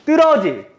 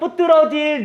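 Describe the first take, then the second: First: The word starts with one tense d sound. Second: A separate b sound comes before the d. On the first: The speaker calls it right. "뒷자리를 된소리로 읽어주면 돼요" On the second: The speaker calls it wrong. "이거 뿌뜨러질이라고 읽으면 안 돼요"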